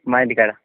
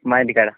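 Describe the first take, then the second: No difference in how they are said.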